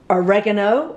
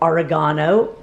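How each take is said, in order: First: It is said the American way. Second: It is said the British way.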